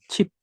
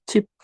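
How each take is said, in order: The two takes are said the same way.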